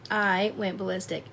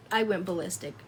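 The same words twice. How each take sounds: The two takes are said the same way.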